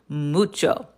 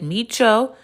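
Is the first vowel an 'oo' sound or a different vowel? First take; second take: oo; different vowel. First: The first vowel is a Spanish 'oo' sound. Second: The first vowel is not an 'oo' sound. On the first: The speaker calls it right. "There's always room for the Spanish ooh" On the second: The speaker calls it wrong. "Is it micho?"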